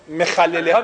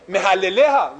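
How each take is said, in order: First: مخلله ها with a throaty kh in the middle; proper khet sound. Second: محلله ها with a plain h in the middle; khet said as h. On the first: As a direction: say مخلله ها with a rasped Hebrew khet. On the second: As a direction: say محلله ها with h in place of throaty kh. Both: Shown as a demonstration. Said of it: "خطا نمیتونست درست تلفظ کنه".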